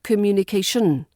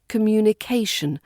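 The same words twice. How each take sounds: First: The stress falls on the final syllable. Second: The stress falls on the syllable before the ending. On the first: The speaker calls it wrong. "not communication" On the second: The speaker calls it right. "the stress usually falls before the ending"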